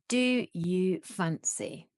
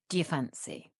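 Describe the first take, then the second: First: Each word is said fully and separately. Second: The first words are run together and shortened.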